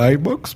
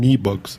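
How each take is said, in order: First: The first vowel sounds like English 'eye'. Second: The first vowel is a plain Spanish 'e'. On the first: This is the English-influenced way it is said locally. "yo aquí le digo iBox porque pues, estamos muy acostumbrados al inglés" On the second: This is the way it is said in Spain. "en España dicen e-box"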